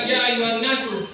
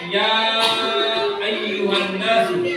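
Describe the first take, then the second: First: The vowel after ya is kept short. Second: The vowel after ya is held long. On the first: The speaker calls it wrong. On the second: The speaker calls it right. "Tidak pendek itu tapi apa? Panjang"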